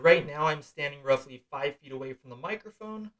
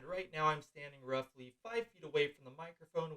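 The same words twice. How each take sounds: First: The voice is recorded at a high level. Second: The voice is recorded at a low level. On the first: "noise reduction feature turned on and my input gain level set to the highest" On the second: "noise reduction feature turned on at the second lowest volume level"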